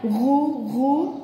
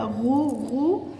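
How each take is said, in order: First: "غو" drawn out slowly with a clear guttural "غ"; sounding out the letter. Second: "غو" said slowly and clearly with a strong guttural "غ", letter by letter; teacher sounds out "غو" for the child; sounding out the letter. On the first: Teacher sounding out "غو" with the child, slow. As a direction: stretch "غو" so a child hears each sound. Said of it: "نشتهجها مع بعض كده". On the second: Teacher sounding out "غو" slowly for a child. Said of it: "اشتهج معايا كده". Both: Shown as a demonstration.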